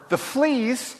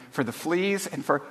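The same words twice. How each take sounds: First: High, incredulous question. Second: Softer, serene thanks. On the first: Corrie cannot accept thanks for fleas, incredulous. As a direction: cut in, pitched up in disbelief. Corrie interrupts, this was too much. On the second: Betsy gives thanks for the fleas, serenely. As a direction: keep it soft and untroubled. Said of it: "Betsy went on serenely". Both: A narrator's reading.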